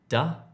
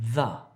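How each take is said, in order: First: The word begins with a d sound. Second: The word begins with a th sound. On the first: The speaker calls it wrong. "Don't say da" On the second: The speaker calls it right. "if you're trying to say the"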